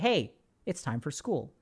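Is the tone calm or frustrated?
calm. It is said in a calm, ordinary tone.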